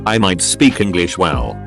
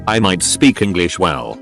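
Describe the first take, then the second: No difference in how they are said.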